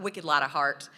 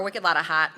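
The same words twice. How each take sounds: First: Said in the usual way. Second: Lightly attempted New England accent, R dropped in heart. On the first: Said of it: "those of you in New England say". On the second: Shown as a demonstration. Southern speaker imitating New Englanders for the audience, attempted New England accent. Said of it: "my Southern accent can do it quite justice".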